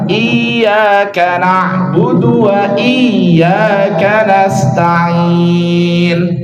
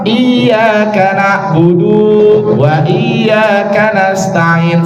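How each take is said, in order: First: The vowel in 'budu' is kept short. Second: The vowel in 'budu' is drawn out long. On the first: The speaker calls it right. "Makanya yang benar adalah" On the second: The speaker calls it wrong. "Salah ya. Budu di sini satu harokat, nggak boleh panjang"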